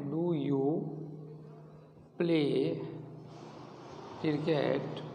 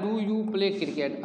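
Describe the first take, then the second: First: Each word alone with long pauses; teacher dictating word by word; word by word dictation. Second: Slow, whole question read in one go; teacher reading a question; slow example question. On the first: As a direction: dictate it so they can write. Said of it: "teacher dictates question word by word". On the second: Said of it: "teacher reads example question". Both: Shown as a demonstration.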